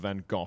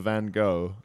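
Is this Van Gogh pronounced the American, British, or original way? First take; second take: British; American. First: It is the British pronunciation, with an F-like sound. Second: It is the American pronunciation of the name. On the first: "the British tend to go for Van Gogh. With a sort of F sound" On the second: "the Americans go for Van Gogh"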